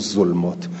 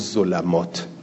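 First: The 'l' is followed by no vowel. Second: The 'l' is followed by an 'a' vowel. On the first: "و تارتن عدلو الی السکون" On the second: "فتارتن عدلو الی الفت"

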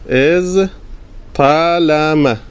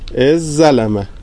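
First: The two consonants are pronounced separately. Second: The two consonants merge into one doubled sound. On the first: "ادغام نمیکنی" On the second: "ادغام میکنیم"

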